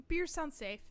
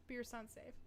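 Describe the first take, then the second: First: Higher, louder beer sounds safe. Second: Quiet. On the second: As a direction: mutter beer sounds safe quietly. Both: Shown as a demonstration.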